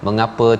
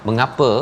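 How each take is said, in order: No difference in how they are said.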